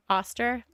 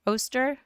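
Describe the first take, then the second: First: Oster said with an "ah" sound as in "father", asking; other pronunciation. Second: Oster said with a long O as in "go", asking; trying a pronunciation. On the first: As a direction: Oster with an open ah, rising. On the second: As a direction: Oster with an oh sound, rising like a question. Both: Shown as a demonstration. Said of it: "Is it Oster or Oster?".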